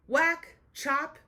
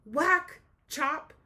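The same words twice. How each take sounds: The two takes are said the same way.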